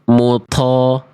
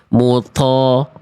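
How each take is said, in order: First: The t sound is released with a puff of breath. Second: The same.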